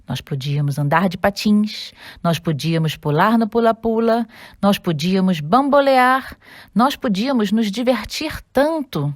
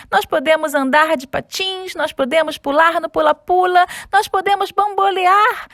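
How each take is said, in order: First: Sad. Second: Excited. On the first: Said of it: "disse o Simão tristemente". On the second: Found his pair, overjoyed. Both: Acted.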